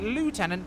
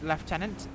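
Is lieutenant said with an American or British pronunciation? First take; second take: American; British. First: It is said with an American pronunciation. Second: It is said with a British pronunciation. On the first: "The Americans call it lieutenant because they drop all the vowels" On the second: "We pronounce it lieutenant"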